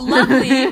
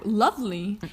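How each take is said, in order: First: "lovely" stretched and much louder, mocking; sarcastic lovely. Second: Said in the usual way. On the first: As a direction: lean hard on "lovely" with irony. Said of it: "quote unquote".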